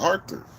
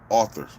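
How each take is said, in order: First: The word sounds like the name Arthur. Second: The word sounds like standard 'author'. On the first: The speaker calls it wrong. "like I'm saying the name Arthur" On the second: The speaker calls it right. "You want me to say it right"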